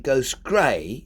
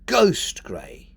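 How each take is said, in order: First: The stress falls on the word grey. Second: The stress falls on the word ghost. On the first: The speaker calls it wrong. "You wouldn't say" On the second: The speaker calls it right. "you'd say"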